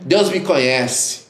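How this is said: It is said in a boastful, self-assured tone. Being known by God is treated as a boast. The speaker calls it wrong. "Não essa fortaleza. Tem gente que fala assim, que pragueja"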